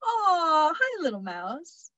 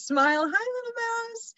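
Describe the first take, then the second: First: Tender cooing. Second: Cutesy greeting. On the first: Pretend. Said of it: "reactions that range from". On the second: Retold or imitated. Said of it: "Emily says".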